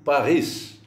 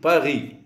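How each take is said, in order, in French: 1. Le s final est bien prononcé. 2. Le s final est muet. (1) "mais en allemand, on dit Paris. Le S se prononce à la fin du mot Paris" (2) "En français, on dit Paris"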